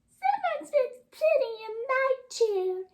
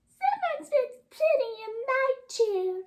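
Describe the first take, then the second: First: It is said in Baby Bear's voice. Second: It is said in Baby Bear's voice.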